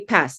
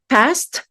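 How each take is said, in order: First: The final t is dropped after the s. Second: The final s and t are both pronounced. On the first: "So the T is already dropped" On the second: "with the s and the t"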